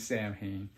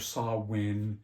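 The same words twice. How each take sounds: First: The name is pronounced the way it is spelled. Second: The name is pronounced differently from its spelling. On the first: This follows the written spelling. "if you're going to spell it like that, man, it's going to be" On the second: This is the intended pronunciation. "I guess is how you're supposed to pronounce it"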